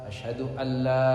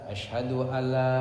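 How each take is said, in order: Both takes have the same delivery.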